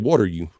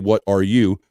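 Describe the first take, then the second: First: The words are run together in a reduced form. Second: Each word is said fully and separately. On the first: The speaker calls it right. "We say ... He knows the regional slang" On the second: The speaker calls it wrong. "We don't say"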